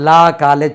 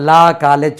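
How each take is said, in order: First: The vowel in 'law' is a long 'ah' sound. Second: The same.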